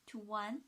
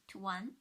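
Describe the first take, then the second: Both takes have the same delivery.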